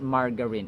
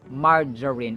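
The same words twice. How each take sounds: First: The g sounds hard, like in go. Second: The g sounds like j, soft. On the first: The speaker calls it wrong. "It's not margarine" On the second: The speaker calls it right. "the G is pronounced as in J"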